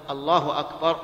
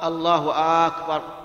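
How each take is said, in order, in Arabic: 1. لا يُمدّ أي حرف أكثر من المعتاد. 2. الحركة الأولى في أكبر تُمدّ. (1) "ولا بد أن تكون بهذا اللفظ الله أكبر" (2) "ولا أن يمد الهمزة همزة أكبر فيقول"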